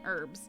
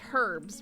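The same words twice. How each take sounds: First: The word is said the American way. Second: The word is said the British way. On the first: "rather than herbs" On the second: "most of you are going back to British English, so most of you say herbs"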